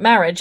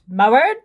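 First: It is said in the speaker's normal voice. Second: It is said in an imitated priest's voice. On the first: "it's not marriage" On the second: "in that voice"

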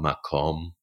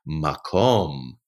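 First: The word is said in a plain, matter-of-fact tone. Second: The word is said in an awed, wondering tone. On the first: It is just an ordinary place. "Is it just a place?" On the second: It is a wondrous, special place. "Is it a wondrous place?"

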